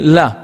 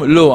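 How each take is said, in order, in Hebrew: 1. המילה מסתיימת בתנועה 'a'. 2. המילה מסתיימת בתנועה 'o'. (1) "בארמית לא אומרים לא, אומרים לא" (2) "אנחנו אומרים היום לא"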